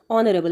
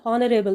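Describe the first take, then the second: First: ऑनरेबल said as "onnerable", with no h at the start; silent h. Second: हॉनरेबल said with a sounded h, as "honnerable"; wrong pronunciation. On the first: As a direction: begin ऑनरेबल directly on the vowel "o", dropping the h. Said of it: "लेकिन यहाँ पर एच silent है". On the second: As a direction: breathe a clear h at the start of हॉनरेबल. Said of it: "एच silent नहीं होता तो ये बनता". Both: Shown as a demonstration.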